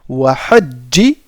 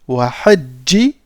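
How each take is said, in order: Both takes have the same delivery.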